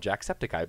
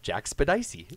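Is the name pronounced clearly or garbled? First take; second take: clearly; garbled. First: The name is pronounced in its usual form. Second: The name is pronounced with garbled middle sounds. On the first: The speaker calls it right. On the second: The speaker calls it wrong.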